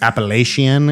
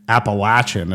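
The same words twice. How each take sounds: First: It uses the standard dictionary pronunciation. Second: It uses the local regional pronunciation. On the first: This is the official dictionary form. "the correct pronunciation, ... is like the English Oxford Dictionary uh, way you say it" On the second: This is how people from the region say it. "is how people say it from Appalachia"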